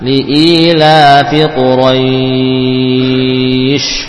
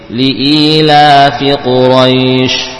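First: The long vowel is held for six counts. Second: The long vowel is held for two counts. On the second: "boleh 2"

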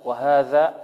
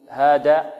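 First: The middle consonant is a voiced 'th' sound. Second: The middle consonant is a plain 'd' sound. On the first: The speaker calls it right. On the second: The speaker calls it wrong.

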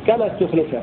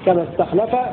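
First: The verb is voweled as ustukhlifa. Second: The verb is voweled as istakhlafa. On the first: The verb is passive. "مبنيا للمجهول" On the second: The verb is active. "بفتح التاء واللام"

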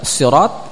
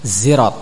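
First: It starts with a heavy, emphatic s sound. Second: It starts with a buzzing z sound. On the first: "Boleh dibaca sirat dengan sad" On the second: "boleh dengan zai"

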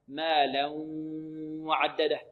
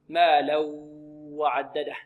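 First: The n merges into w with a nasal sound. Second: The n merges into w with no nasal sound. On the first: The speaker calls it right. "لابد من إخراج صوت من ماذا؟ من الخيشوم" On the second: The speaker calls it wrong. "هذا الخطأ"

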